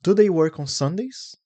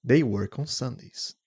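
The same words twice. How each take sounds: First: Lifted, louder question with "Sundays" rising; rising intonation. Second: Statement tune, settling down on "Sundays"; falling intonation. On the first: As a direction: question tune, higher and louder, climbing on "Sundays". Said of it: "Rising intonation". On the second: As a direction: bring the pitch down at the end, on "Sundays". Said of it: "Falling intonation". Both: Shown as a demonstration.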